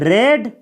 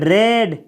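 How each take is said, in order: No difference in how they are said.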